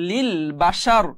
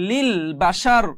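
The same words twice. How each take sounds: The two takes are said the same way.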